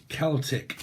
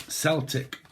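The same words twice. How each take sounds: First: Celtic with a hard K sound. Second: Celtic with an S sound. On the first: Reader tries out Celtic, said with a K. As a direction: start "Celtic" like "Kel-tick". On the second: Reader tries out Celtic, said with an S. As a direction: start "Celtic" like "Sel-tick". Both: Shown as a demonstration.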